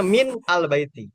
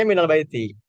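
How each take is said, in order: First: MIN, then AL BAITI as separate words; original separated form. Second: MINAL BAITI run together, min becoming mi-nal; joined reading. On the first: Teacher showing the original form behind the reading, separated words. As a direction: stress MIN and break before "al baiti". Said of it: "Tapi aslinya". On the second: Teacher showing students how the phrase is read, joined reading. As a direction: link it as "minal baiti", no break after min. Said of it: "Kalau dibacanya". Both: Shown as a demonstration.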